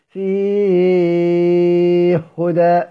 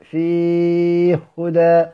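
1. المدّ الطويل يُمَدّ مدة طويلة. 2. المدّ الطويل يُمَدّ مدة متوسطة. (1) "والمد" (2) "والتوسط"

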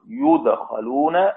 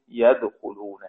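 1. يُضبط بالحركات كفعل مبني للمجهول: yudkhalun. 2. يُضبط بالحركات كفعل مبني للمعلوم: yadkhulun. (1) "مبني للمجهول" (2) "والباقون مبني للمعلوم"

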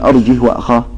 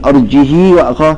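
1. الهاء الأخيرة ساكنة، بلا حركة. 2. الهاء الأخيرة تحمل كسرة مُشبعة طويلة. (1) "لا تقل ... هذا إسكان" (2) "ولا تقل ... هذه صلة"

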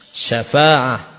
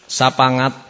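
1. Konsonan di tengah itu bunyi f. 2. Konsonan di tengah itu bunyi p. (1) "yang benar adalah syafa'ah" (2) "fa menjadi pa"

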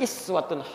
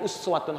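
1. Kata ini dimulai dengan vokal i. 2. Kata ini dimulai dengan vokal u. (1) "Tapi riwayat Warsh dan Qalun dari Nafi' dibaca iswah. Berharakat kasrah" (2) "Dalam riwayat Hafiz dari Asim dibaca uswa"

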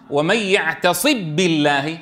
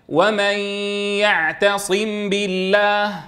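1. تُدغم الميم في الباء بالكامل. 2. تُنطق الميم بوضوح قبل الباء. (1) "كيف نقرأها إذا أردنا أن ندغم الميم الساكنة بالباء؟" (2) "كيف نظهرها؟ بقرع المخرج مرتين"

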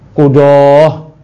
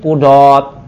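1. Kata ini diakhiri dengan bunyi h. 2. Kata ini diakhiri dengan bunyi t. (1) "Jangan bacanya" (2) "dibaca pakai ta ujung"

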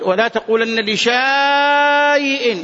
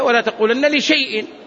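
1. تُنطق 'a' طويلة بعد الشين. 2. لا تُنطق 'a' طويلة بعد الشين. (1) "فلو قرأت من المصحف ستقول ولا تقولن لشيء، هذا خطأ" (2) "هي ولا تقولن لشيء، هذه الألف تكتب ولا تنطق"

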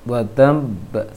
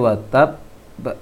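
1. Konsonan sebelum ba terdengar seperti m sengau. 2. Konsonan sebelum ba adalah b biasa.

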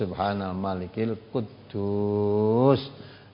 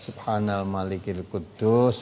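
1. Frasa itu diucapkan agak dipanjangkan. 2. Frasa itu diucapkan dengan panjang biasa.

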